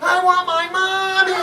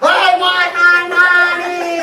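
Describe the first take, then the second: First: It is cried at a normal loudness. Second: It is cried much more loudly.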